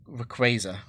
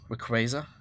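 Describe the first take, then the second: First: The first vowel is a short A. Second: The first vowel is a short A.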